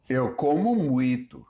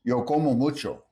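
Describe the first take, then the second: First: Eu como muito with como ending in u; Brazilian o as u. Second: Yo como mucho with a full open o; open Spanish o. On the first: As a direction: reduce the o in como to u. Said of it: "Unstressed O often sounds closer to a U sound". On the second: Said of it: "Spanish keeps the vowel open". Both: Shown as a demonstration.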